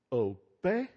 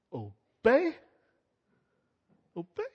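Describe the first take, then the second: First: Sarcastic. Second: Mocking, high, louder Obey? with a scornful rise; sarcastic. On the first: Retold or imitated. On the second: Pharaoh scoffing at Moses, sarcastic Obey?. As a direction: sneer the word Obey? back like a haughty Pharaoh. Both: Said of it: "Just real sarcastically".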